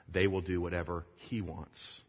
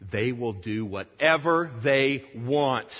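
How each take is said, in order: First: Said in the usual way. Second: Slow, loud, higher acted alarm; indignant objection. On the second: Church leaders objecting to Bunyan, loud slow indignation. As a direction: hammer out WHATEVER THEY WANT in alarm.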